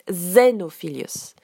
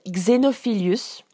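First: The name is pronounced with English sounds. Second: The name is pronounced with French sounds. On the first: "Et en anglais, on prononce" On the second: "En français, il s'appelle"

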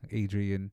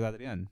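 First: The name is said with English pronunciation. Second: The name is said with Spanish pronunciation. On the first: This is an anglicized version of the name. The speaker calls it wrong. "it's not supposed to be like" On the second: This is how the name was meant to sound. The speaker calls it right. "our names were initially given to us with a Spanish inflection in mind"

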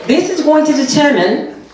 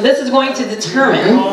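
First: It is said in a put-on British accent. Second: It is said in the speaker's usual accent.

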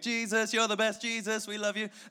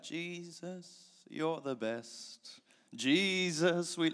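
First: It is said quickly, like an upbeat song. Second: It is said slowly, like a gentle song.

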